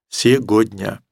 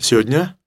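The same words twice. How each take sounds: First: Every sound of the word is pronounced. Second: Some sounds of the word are dropped. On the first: "который бы произнес все это слово целиком" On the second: "В лучшем случае говорите сегодня"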